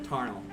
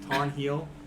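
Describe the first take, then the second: First: The H sound is softened, almost dropped. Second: The H sound is pronounced clearly.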